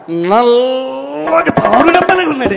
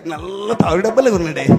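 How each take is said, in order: First: It is said in a normal, loud voice. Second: It is said softly and gently.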